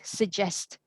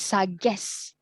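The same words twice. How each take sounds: First: The first syllable is light and reduced. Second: The first syllable has a full 'sa' vowel. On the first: The speaker calls it right. "you just go really light on it" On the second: The speaker calls it wrong. "It's not sa. It's not it's not suggest"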